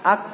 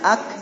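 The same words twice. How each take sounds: First: The final k ends without a puff of air. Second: The final k ends with a puff of air. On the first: The speaker calls it wrong. "Jadi jangan ak, ak, ak. Gak ada angin ya" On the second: The speaker calls it right. "Keluarkan anginnya"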